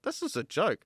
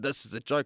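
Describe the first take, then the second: First: The voice sounds amused and light-hearted. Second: The voice sounds bitter and resentful. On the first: The situation is actually funny. "I changed the tone of my voice" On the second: Life is cruel and unfair. "instead of going"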